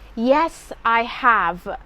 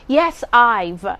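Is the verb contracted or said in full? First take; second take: full; contracted. First: The verb is said in its full form. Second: The verb is contracted to a short form. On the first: The speaker calls it right. "You must say" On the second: The speaker calls it wrong. "never say"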